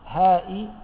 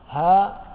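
First: It ends with a glottal stop plus -i. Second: It ends on a long vowel, no glottal stop. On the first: "بالكسرة" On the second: "بدون الهمزة"

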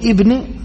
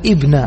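First: The word ends with an i vowel. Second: The word ends with an a vowel. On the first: The word describes the name just before it. The speaker calls it wrong. "ها تقول ابن، هذا خطأ كبير" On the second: The word describes the first name, al-Miqdad. The speaker calls it right. "وإنما تقول ابن، لأن هذا يعود إلى من؟ ها؟ المقداد"

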